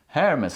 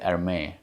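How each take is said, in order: First: The final s sound is clearly pronounced. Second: The final s sound is left out. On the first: "like a hair mess" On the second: "I usually leave out the S, so I don't say it. I say Hermes"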